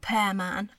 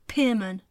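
First: The first syllable sounds like 'pair'. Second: The first syllable sounds like 'peer'. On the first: This is how the name is written. The speaker calls it wrong. "it's spelt Pearman" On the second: This is how the name is really said. The speaker calls it right. "but it's pronounced Pearman"

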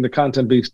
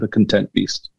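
First: The stress in 'content' is on the first syllable. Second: The stress in 'content' is on the second syllable. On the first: A beast made of or hungry for content. "he goes from being the content beast" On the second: A beast that is satisfied after being fed. "to the content beast"

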